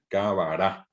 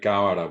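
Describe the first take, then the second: First: The stress is on the last syllable. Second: The stress is on the first syllable. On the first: The speaker calls it right. "en guaraní el acento siempre es final" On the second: The speaker calls it wrong. "no es cábara"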